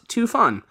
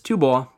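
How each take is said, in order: First: The second syllable is pronounced 'fan'. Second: The second syllable is pronounced 'bo'. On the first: The speaker calls it wrong. "not Tu Fan" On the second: The speaker calls it right. "Tibet is Tu Bo"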